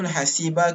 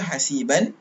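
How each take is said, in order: First: The word ends with a plain a sound. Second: The word ends with an -an sound. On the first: Reading stops at this word. The speaker calls it right. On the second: Reading continues past this word. The speaker calls it wrong.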